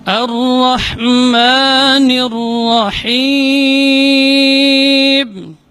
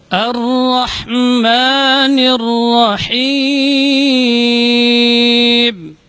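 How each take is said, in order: The two takes are said the same way.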